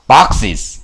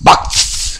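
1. 복수형 끝 부분은 음절을 하나 더 늘려요. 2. 복수형 끝 부분은 음절을 더하지 않아요. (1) "여기다 E를 넣으니까 boxes" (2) "그냥 S만 붙어볼게 ... 어색하죠?"

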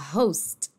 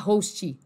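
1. Termina no T, sem vogal depois. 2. Um som de vogal curta segue o T final. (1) "se fala host" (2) "não se fala host"

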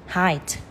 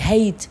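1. Nguyên âm này đọc giống 'eye' trong 'high'. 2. Nguyên âm này đọc giống 'ay' trong 'day'. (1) "tuy nhiên nó sẽ là I" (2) "các bạn thường đọc là a thì hate"

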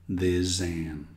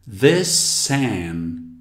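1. As palavras são ligadas com som de Z. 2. As palavras são ligadas com som de S. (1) "e não com Z" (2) "temos o som de S"

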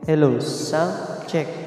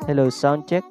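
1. Suaranya sudah diberi gema reverb. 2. Suaranya kering, tanpa gema tambahan. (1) "Lagay ko sa karaoke. ... Napakalinis po ng pag-reverb" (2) "bumalik na po sa dati yung boses natin"

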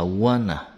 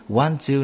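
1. Hai từ hòa vào nhau thành một từ rút gọn. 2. Cả hai từ được nói đầy đủ và tách riêng.

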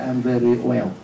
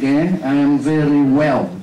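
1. Âm w trong well bị mất hoặc yếu. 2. Âm w trong well được phát âm rõ. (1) "Chứ không phải I am very well"

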